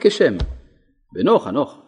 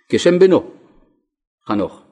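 First: The pause comes after the first word. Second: The pause comes after the second word.

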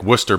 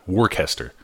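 First: The word is said in two syllables, like 'WOOS-ter'. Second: The word is said in three syllables, like 'WOR-ches-ter'. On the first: The speaker calls it right. "just like Worcester, Mass" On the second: The speaker calls it wrong. "not Worcester"

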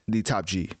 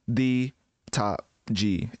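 First: The words flow with natural speaking inflection. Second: The words sound choppy and pieced together.

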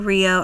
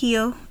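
First: The word begins with an English R sound. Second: The word begins with a breathy H sound. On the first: "I'm pronouncing it in English with the R of R" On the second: "if I'm pronouncing it in Portuguese, the R sounds like an H"

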